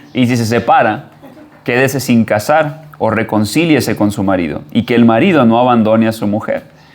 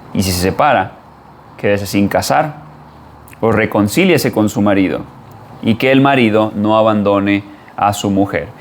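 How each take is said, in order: The two takes are said the same way.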